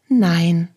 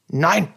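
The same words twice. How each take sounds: First: It is said in a friendly tone. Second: It is said in an unfriendly tone.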